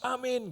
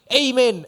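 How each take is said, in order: First: It is said with a plain Indonesian accent. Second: It is said with an affected English-style accent. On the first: "saudara boleh amin" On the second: "kayak sok di Inggrisin gitu loh"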